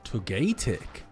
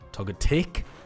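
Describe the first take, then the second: First: The last syllable is not stressed. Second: The last syllable is stressed.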